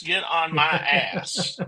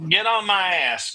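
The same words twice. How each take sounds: First: Slow, laughing repeat. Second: Said in the usual way. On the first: Pretend. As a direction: say it again slowly through a laugh. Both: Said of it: "get on to you after the show".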